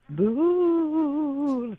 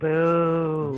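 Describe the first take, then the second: First: It is a spooky boo meant to scare. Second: It is a judging boo showing disapproval.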